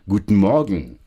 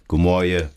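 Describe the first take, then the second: First: It is said in careful standard German. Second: It is said in clipped Saarland dialect.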